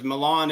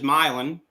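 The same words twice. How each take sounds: First: It is said the standard, familiar way. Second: It is said with a different, local pronunciation. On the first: It names the city in Italy. "there's Milan, Italy" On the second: It names the town in Missouri. "but that's just Milan"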